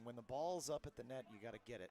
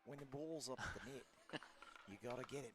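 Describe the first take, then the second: First: It is said in a plain, unmarked accent. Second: It is said in an Australian accent.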